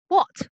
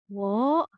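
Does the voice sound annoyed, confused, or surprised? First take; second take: annoyed; confused. First: It sounds annoyed and irritated. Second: It sounds confused. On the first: The speaker is irritated. "it's showing sort of annoyance, I guess, um, irritation" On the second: The speaker does not understand.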